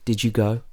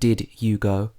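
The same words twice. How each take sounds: First: The d and y merge into a j sound. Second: The d and y sounds stay separate. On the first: "the sound would change to j" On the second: "Not did you go"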